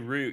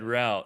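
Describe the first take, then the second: First: It is said with a British pronunciation. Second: It is said with an American pronunciation.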